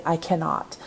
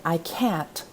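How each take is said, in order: First: "cannot" said in full as two clear syllables, not "can't"; both syllables of cannot. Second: Said in the usual way. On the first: Shown as a demonstration. Teacher contrasting "can't" with the full "cannot". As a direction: spell out "cannot" whole, the formal way. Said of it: "you would say". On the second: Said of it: "instead of saying".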